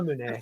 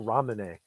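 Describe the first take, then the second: First: The word is said with a Japanese pronunciation. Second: The word is said with an anglicized pronunciation. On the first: The speaker calls it right. "pronounced Ramune here in Japan" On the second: The speaker calls it wrong. "I'm butchering the pronunciation on purpose"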